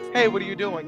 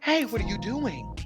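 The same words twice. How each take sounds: First: It is said in a natural everyday voice. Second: It is said in a put-on acting voice.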